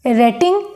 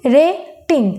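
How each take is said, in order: First: Said in the usual way. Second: rating with a pause after रे; split into syllables. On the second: Shown as a demonstration. Teacher showing the stop, rating split in two. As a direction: break rating into two beats, रे then टिंग. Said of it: "रे बोल के फिर टिंग".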